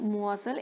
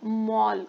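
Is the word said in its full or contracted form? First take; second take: full; contracted. First: It is said in full with three syllables. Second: It is said as one short contracted syllable. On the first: This form is used in written language. "लिहिण्यासाठी काय वापरतात मुअसल" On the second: This form is used in spoken language. "बोलताना जास्त वापरतात"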